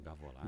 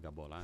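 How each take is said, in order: First: It is said with a v sound. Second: It is said with a b sound. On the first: This is how people elsewhere say it. "Outros falam gavolar" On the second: This is how people from the South say it. "Gaúcho fala gabolar"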